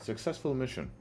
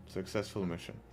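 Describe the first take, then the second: First: Said in the usual way. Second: Much softer, under the breath; quiet aside. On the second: Shown as a demonstration. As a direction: murmur it to yourself, smug. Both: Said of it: "repeats it as an aside".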